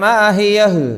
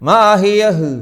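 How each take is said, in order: The two takes are said the same way.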